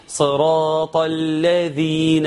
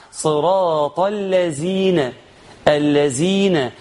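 First: Tongue out on the dh of الذين, slowly; correct dhal. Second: الذين said slowly as "allazeena"; zay-for-dhal error. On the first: Teacher gives the required reading, الذين with full dhal. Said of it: "وتطلع لسانك في الذال". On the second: Teacher quotes a possible mistake, الذين with z. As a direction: buzz a z in place of dh in الذين. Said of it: "الحرف الذال وحط زاي". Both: Shown as a demonstration.

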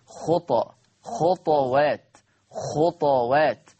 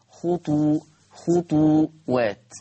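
First: خطوات as khutwat, the t vowelless with a bouncing release; sukun with qalqala. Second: خطو-، خطوات as khutu, khutuwat, drawn out slowly; damma on the ta. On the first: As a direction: slowly sound out خطى، خطوات، خطوات, echoing the bare emphatic t. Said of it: "بسكون الطاء مع القلقلة". (خطوات بسكون الطاء مع القلقلة: خُطْوات) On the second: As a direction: sound out خطوات slowly with a u after the t. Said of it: "بضم الطاء". (خطوات بضم الطاء: خُطُوات) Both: Shown as a demonstration.

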